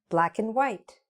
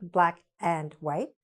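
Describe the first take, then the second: First: The word 'and' is reduced to a short 'n'. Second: The word 'and' is said fully and clearly. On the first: The speaker calls it right. "Don't say and, just say mm" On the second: The speaker calls it wrong.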